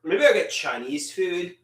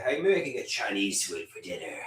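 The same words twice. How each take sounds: First: Said in the usual way. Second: Lower, softer and fast, tossed off to himself; quiet low mutter. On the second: Real, not acted. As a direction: mumble it quickly under your breath. Musing about dinner twice.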